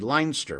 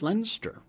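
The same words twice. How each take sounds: First: The name is pronounced with a German reading. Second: The name is pronounced with a British reading. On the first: The speaker calls it wrong. "the German in me says this would be Leinster" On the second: The speaker calls it right. "it's actually British. ... pronounced it Leinster"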